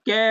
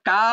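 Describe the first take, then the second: First: The vowel is a front 'e' sound. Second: The vowel is an open 'a' sound. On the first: "কে হবে না" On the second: "কা হবে না"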